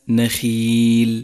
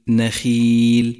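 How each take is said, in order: Both takes have the same delivery.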